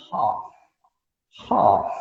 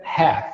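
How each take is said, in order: First: "half" in a British accent with a long open A; plummy British "half". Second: "half" in an American accent with an E-like vowel, "héf"; American "half" almost "heff". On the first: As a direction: say "half" the pompous British way, "haaf". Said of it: "aquela pomposidade britânica". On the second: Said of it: "o American English fica mais um E". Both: Shown as a demonstration.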